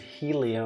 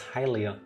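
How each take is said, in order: First: The first syllable sounds like 'heel'. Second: The first syllable sounds like 'high'. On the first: The speaker calls it wrong. "people pronounce it Helia" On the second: The speaker calls it right. "it's not the heel, it's high"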